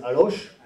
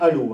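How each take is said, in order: First: It ends with a sounded 'sh' consonant. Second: It ends on a vowel with no final consonant. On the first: This marks the speaker as a Parisian journalist. The speaker calls it wrong. "les journalistes parisiens disent Alloche" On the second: This is how local people say the name. The speaker calls it right. "on dit bien Allo, hein, C H"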